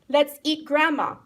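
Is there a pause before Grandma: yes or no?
no. It runs on with no pause before Grandma.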